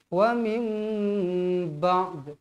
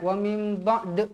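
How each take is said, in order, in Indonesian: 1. Huruf d terakhir hanya dibunyikan dengan ringan. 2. Huruf d terakhir terpantul keluar dengan sangat kuat. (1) "Asalkan bunyi je" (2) "Jangan macam kuat-kuat sangat"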